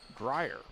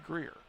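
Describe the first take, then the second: First: The name is said as 'grier'. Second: The name is said as 'greer'. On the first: This is how the name is properly pronounced. The speaker calls it right. "Grier is how it's pronounced" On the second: This is how locals say the name. The speaker calls it wrong. "Around here we say Greer"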